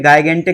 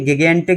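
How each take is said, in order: First: The word begins with a hard g and 'eye'. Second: The word begins with a hard g and short i. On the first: "ये गिगेंटिक या गायगेंटिक नहीं है" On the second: "ये गिगेंटिक या गायगेंटिक नहीं है"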